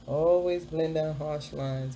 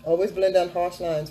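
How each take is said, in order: First: "Always blend down harsh lines" said slowly, each word spaced; slow emphatic tip. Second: Said in the usual way. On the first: Shown as a demonstration. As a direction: drag out the tip so it sinks in.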